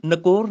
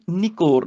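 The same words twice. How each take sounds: First: ਨਕੋਰ starting na; wrong vowel. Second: ਨਿਕੋਰ starting ni; short i. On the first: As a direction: say ਨਕੋਰ with an a after the n. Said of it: "ਨਕੋਰ ਨਹੀਂ". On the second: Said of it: "ਸਿਆਰੀ ਹੈਗੀ ਆ". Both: Shown as a demonstration.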